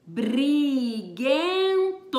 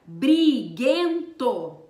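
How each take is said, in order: First: Briguento drawn out very slowly, each sound apart; very slow pronunciation. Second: Briguento stretched slowly, B and R both sounded; slow pronunciation. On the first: Teacher repeats Briguento to show the B and R sounds, very slow. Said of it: "o som de B e o som de R". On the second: Teacher pronounces briguento to show the cluster, slow and loud. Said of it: "Quando nós pronunciamos essa palavra". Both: Shown as a demonstration.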